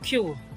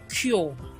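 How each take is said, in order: First: The vowel glides from an oo sound to uh. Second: The vowel is one steady sound without gliding. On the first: The speaker calls it right. "The right pronunciation is cure" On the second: The speaker calls it wrong. "which is wrong"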